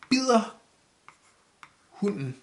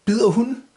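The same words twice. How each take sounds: First: "Bider", long pause, then "hunden"; word by word. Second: "Bider hunden" run together, higher, rising; phrased as question. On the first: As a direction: set "Bider" and "hunden" apart as separate words. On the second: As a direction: join "Bider hunden" into one lifted question. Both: Shown as a demonstration. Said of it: "phrase this the right word".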